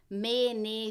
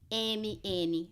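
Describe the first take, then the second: First: The letters are named in the Bahia style. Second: The letters are named in the São Paulo style. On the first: This is how it was said at school in the other region. "Você fala" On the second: This is how it was not said at school in the other region. "você não fala"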